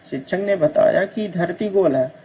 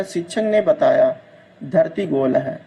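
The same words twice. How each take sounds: First: Said in the usual way. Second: "शिक्षक ने बताया", pause, then "धरती गोल है" lower; pause replacing कि. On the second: Shown as a demonstration. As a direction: break after बताया, drop pitch on "धरती गोल है". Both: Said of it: "की के स्थान पर".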